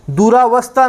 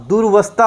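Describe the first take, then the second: First: दुरावस्था with an extra "aa" after दुर; wrong form. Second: दुर्वस्था said durvastha with no vowel after दुर; correct form. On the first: Teacher to students, showing the wrong form दुरावस्था. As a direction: say दुरावस्था as du-raa-vastha, the wrong spelling. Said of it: "नहीं होता". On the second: Teacher to students, giving the right form दुर्वस्था. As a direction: join दुर् straight to वस्था in दुर्वस्था. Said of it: "होता है". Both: Shown as a demonstration.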